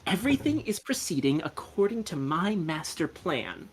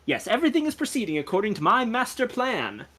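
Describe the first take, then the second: First: Softer, measured note-taking delivery; taking dictation. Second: Gentleman sleuth announcing it grandly, higher pitch; self-assured boast. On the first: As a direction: say it as if writing each word down. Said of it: "supposed to be taking this down". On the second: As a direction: boast lightly in a theatrical gentleman's voice. Gentleman boasts of his plan. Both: Acted.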